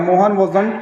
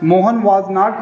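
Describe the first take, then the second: First: Was and not merge into one word, wasn't. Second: Was and not are said as two full words.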